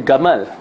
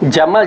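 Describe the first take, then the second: First: The word begins with a hard g sound. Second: The word begins with a j sound. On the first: This is how Egyptian speakers say it. "Jamal jadi gamal" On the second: This is the standard pronunciation. "Kalau Mesir pula dia tak boleh sebut jim"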